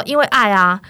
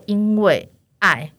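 First: 因为爱啊 said louder, firm and declared; loud declaration. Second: 因为爱 said slowly and evenly, each syllable drawn out; slow answer. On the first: Saleswoman repeating 因为爱啊 loudly to the client. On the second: Saleswoman answering client's question, slow 因为爱. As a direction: draw out 因为爱 slowly, no extra force. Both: Retold or imitated. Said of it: "而且我很大声".

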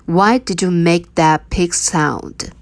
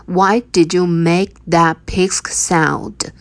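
No difference in how they are said.

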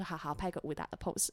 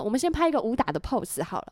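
First: Meek quiet reply. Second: Said in the usual way. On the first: Retold or imitated. An actress meekly agreeing to the co-star's pose, quiet. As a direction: softly say 好，好，拍个武打的pose, almost under the breath. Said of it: "我说". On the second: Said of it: "然后他说".

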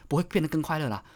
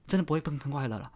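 First: Said in the usual way. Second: 真的 hit first, the rest fast and softer; stress on 真的. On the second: Shown as a demonstration. Insisting to viewers that life won't get happier, stress on 真的. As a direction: punch 真的, then rush through 不会变得更快乐啦.

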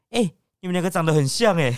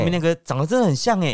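First: Called out after them, a bit raised; half-hearted shout from behind; imitating a clerk calling out; mock yell. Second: Raised call, stress on 真; imitating the clerk's call; mock yell. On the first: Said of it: "有点类似类咆哮那种感觉". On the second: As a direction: shout 真的很像 after them. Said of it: "咆哮那种感觉".

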